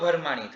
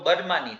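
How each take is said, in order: First: It begins with breathy bh, then a vowel. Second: It begins with plain b, then a vowel. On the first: "ભ વાપરીને બોલીએ તો ભરમાણી થાય" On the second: "અલગ રીતના બોલીએ તો બરમાની થાય"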